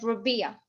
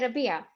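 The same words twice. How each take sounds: First: The R is said as an English er. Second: The R is said the Arabic way. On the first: This is how English speakers say the name. "he used to the to sound the R as er" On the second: This is how native speakers say the name. "We say Rabia"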